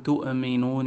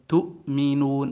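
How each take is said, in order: First: The glottal stop has an echoing bounce. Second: The glottal stop has no echoing bounce. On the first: The speaker calls it wrong. "ما نقول تؤمنون" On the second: The speaker calls it right. "والذي يحققها لا يقلقلها"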